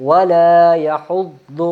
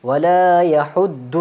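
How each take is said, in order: The two takes are said the same way.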